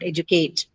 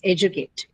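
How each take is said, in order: First: The stress is on a later syllable. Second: The stress is on the first syllable. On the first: The speaker calls it wrong. "It's not educate" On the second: The speaker calls it right. "This is how educate is stressed"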